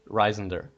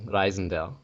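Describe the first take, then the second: First: It is said with an English pronunciation. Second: It is said with a German pronunciation. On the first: "In English" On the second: "In German, it would be"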